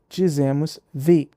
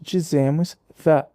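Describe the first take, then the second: First: Said in the form used before vowel sounds. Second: Said in the form used before consonant sounds. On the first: "Antes de som de vogal" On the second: "Antes de consoante"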